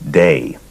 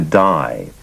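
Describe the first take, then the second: First: The name is pronounced to rhyme with day. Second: The name is pronounced to rhyme with die. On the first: This is how friends in New York said it. "his friends and, and people around him pronounced his first name Day" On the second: This is how people in California said it. "the pronunciation shifted to Die"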